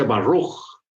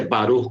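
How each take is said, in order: First: Slow "Baruch" in an imitated American accent; acento gringo. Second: "Baruch" with a light tapped Spanish r; pronunciación hispana. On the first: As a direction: imitate an American saying "Baruch", drawn out with an English r. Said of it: "Si usted oye a un gringo". (acento americano imitado) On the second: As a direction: say "Baruch" with a quick Spanish tap on the r. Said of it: "como nosotros". ("Baruch" con erre suave hispana) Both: Shown as a demonstration.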